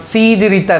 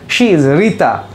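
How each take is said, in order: First: The first word starts with an 's' sound. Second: The first word starts with an 'sh' sound. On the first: The speaker calls it wrong. "not C" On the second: The speaker calls it right. "the exact pronunciation is she"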